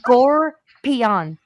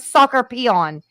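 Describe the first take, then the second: First: It is said in three syllables, as 'scorpion'. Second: It is split into four syllables, like 'soccer peon'. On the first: The speaker calls it right. "Listen to me. Scorpion" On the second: The speaker calls it wrong. "It's not a soccer peon"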